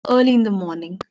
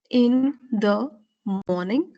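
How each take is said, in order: First: Early in the morning linked as one smooth run; slurred together. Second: In, the, morning pronounced one by one with gaps; each word separate. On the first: Teacher showing the fluent way, words slurred together. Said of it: "you do not pronounce each word clearly". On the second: Teacher showing what not to do, each word separate. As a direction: break "in the morning" into separate full words. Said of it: "pronounce each word clearly". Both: Shown as a demonstration.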